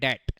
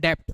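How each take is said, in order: First: No sound is heard before the t. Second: A b or p sound is heard before t. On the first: The speaker calls it right. "इसको हम बोलते हैं short में डैट" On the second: The speaker calls it wrong. "छोटा बच्चा बोलता है इसको डेप्ट"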